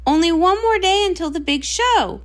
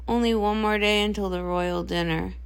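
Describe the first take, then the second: First: Can't wait for the big show; buzzing with excitement; excited. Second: Dreading tomorrow; gloomy dread. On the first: Eager star before show. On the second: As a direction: lower and softer, weighed down. Dreading sister answers in parallel. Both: Acted.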